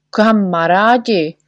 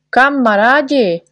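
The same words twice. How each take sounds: First: Slow, stretched call to friends; Čiperka calls his friends, drawn out. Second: Higher, louder call to friends; rally everyone against the insult; doctor rallies friends against the poet, loudly. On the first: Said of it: "volal Čiperka". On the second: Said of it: "volal doktor Pilulkin". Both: A narrator's reading.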